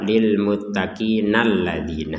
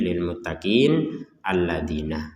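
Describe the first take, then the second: First: The words run together with no break. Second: A stop comes before the second word. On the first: The two phrases are read as one connected stretch. "Pilihan kedua" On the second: The reader stops before starting the next phrase. "Pilihan pertama kita berhenti"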